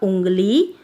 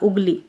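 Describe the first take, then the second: First: The first vowel is said with nasalization. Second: The first vowel is said without nasalization. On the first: The speaker calls it right. "तो इसका उच्चारण होगा उंगली" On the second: The speaker calls it wrong. "अगर चंद्र बिंदु नहीं लगी होती तो उगली होता"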